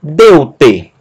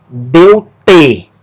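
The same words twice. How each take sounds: First: DEU-te, first syllable punched, te dropping away; Deu-te with stress on Deu; stress on penultimate. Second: Deu-te with the stress thrown onto TE; deu-TE, last syllable punched and falling; wrong final stress. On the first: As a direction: hit the Deu of Deu-te. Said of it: "mas a penúltima". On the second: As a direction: hit the te of deu-te, not the deu. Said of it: "Sílaba tônica não é a última". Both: Shown as a demonstration.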